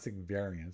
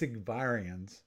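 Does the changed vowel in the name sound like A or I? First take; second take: A; I. First: The changed vowel sounds like an A. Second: The changed vowel sounds like an I. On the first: The speaker calls it wrong. "not Sigvarians, not an A" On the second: The speaker calls it right. "I think it's Sigvarians, because it's an I"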